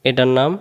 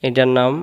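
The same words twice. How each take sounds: Both takes have the same delivery.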